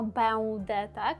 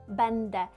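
First: The nasal vowel is followed by a u sound. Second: The nasal vowel is followed by an n sound. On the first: The speaker calls it wrong. "Ми не кажемо беуде" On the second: The speaker calls it right. "Чуємо там Н"

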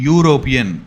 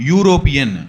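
Both takes have the same delivery.

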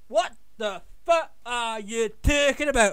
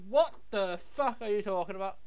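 First: It is spoken in an American accent. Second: It is spoken in the speaker's normal accent.

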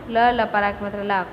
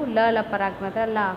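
The two takes are said the same way.

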